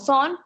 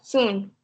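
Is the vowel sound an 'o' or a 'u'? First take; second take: o; u. First: The vowel is pronounced like a short o. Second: The vowel is pronounced like a u. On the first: The speaker calls it wrong. "no va a sonar como son" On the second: The speaker calls it right. "sino como sun"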